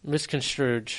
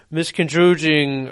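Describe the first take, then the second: First: Misconstrued said softly, mis-con-STROOD; quiet, careful misconstrued; corrected pronunciation. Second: Misconstruing said as mis-con-TROO-jing with a j sound; mispronounced misconstruing. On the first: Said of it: "I put a G in there". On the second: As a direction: drag out misconstruing slowly with a j for the s. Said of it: "What word did you just say?". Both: Real, not acted.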